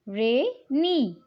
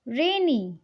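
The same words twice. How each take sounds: First: "rainy" split in two, रे, pause, नी; teacher's two-beat "rainy"; broken into syllables. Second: Said in the usual way. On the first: Shown as a demonstration. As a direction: say "rainy" slowly as two separate parts. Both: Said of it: "दो भागों में break किया".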